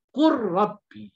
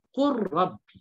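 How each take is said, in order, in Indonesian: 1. Bunyi l dilebur ke dalam r. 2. Bunyi l dilebur ke dalam r.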